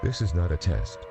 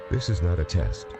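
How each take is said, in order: Both takes have the same delivery.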